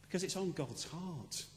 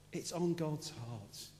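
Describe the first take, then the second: First: Said in the usual way. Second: Slow, soft echo of the line; slow emphatic repeat. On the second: Acted. Pastor repeating the point to the congregation, slow and soft. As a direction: let it sink in, drawn out slowly.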